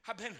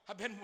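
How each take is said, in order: Both takes have the same delivery.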